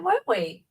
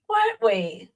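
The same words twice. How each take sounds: First: Said in the usual way. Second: Jumps up high into a mock squeak; squeaky teasing repeat. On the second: Teasing Darley again, in a much higher mock squeak. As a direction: poke fun at him in a high squeal.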